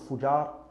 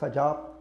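First: The first vowel is a u sound. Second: The first vowel is an a sound. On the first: "not Fujar" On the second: "not Fajar"

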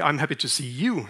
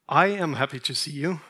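First: The stress is on the word 'you'. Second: The stress is on the word 'I'. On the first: The speaker is happy to see this person, not someone else. "then I'm happy to see you, but not your mother-in-law" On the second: The speaker is happy, unlike someone else. "then that probably means I'm happy to see you, but he's not"

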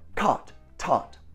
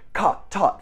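First: The words are said at a quicker pace. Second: The words are said at a very quick pace. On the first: "Now faster" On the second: "And now super fast"

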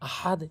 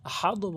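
First: The word ends with an 'e' vowel. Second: The word ends with an 'o' vowel. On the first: The speaker calls it right. "বলতে হবে আহাদে" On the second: The speaker calls it wrong. "অনেকেই ভুল বলে আহাদও বলে"

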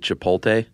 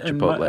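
First: The L sound comes before the T sound. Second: The L sound comes after the T sound. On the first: The speaker calls it wrong. "some people transpose the L and say chipotle" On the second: The speaker calls it right. "So chipotle"

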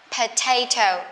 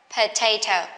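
Both takes have the same delivery.

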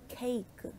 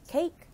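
First: It is said with Korean sounds. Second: It is said with English sounds. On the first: "adjusted to the sounds in the Korean language" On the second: "words that we are familiar with"

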